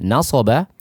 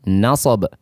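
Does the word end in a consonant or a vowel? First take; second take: vowel; consonant. First: The word ends with a final vowel. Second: The word ends on a bare consonant.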